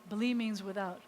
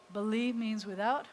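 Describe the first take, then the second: No difference in how they are said.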